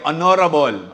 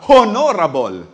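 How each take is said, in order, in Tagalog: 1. Ang salita ay walang tunog na h sa simula. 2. Ang salita ay may malinaw na tunog na h sa simula. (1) "with silent age" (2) "this time may age"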